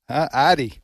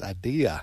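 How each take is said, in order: First: The word ends in an 'ee' sound. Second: The word ends in an 'uh' sound. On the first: The speaker calls it wrong. "It's country south is what that is" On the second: The speaker calls it right. "the word is idea"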